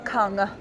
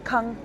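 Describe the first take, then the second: First: The final consonant is audibly released. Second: The final consonant is clipped short. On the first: The speaker calls it wrong. "I don't say kung" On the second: The speaker calls it right. "it's very terminal. I say kung"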